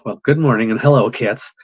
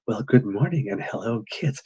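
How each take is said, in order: First: The greeting sounds angry and aggressive. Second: The greeting sounds calm and soothing.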